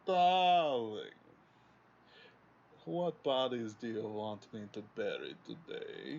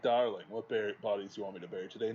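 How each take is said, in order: First: It is spoken in a feminine German accent. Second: It is spoken plainly without a German accent. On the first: The line carries menace and character. The speaker calls it right. "it's this German Fraulein accent" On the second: The line falls flat without character. The speaker calls it wrong. "can't just, like, have somebody say something like that"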